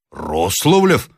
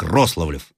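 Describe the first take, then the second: First: Sudden eager question on the name; lively surprised echo. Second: Said in the usual way. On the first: A narrator's reading. Sergeant repeating the officer's surname, with lively surprise. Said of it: "повторил с необычайной живостью сержант". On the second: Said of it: "продолжал Рославлев".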